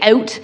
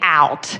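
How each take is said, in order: First: It is said with a Canadian accent. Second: It is said with an American accent. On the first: "in Canada, we say out" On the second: "in America, they say out"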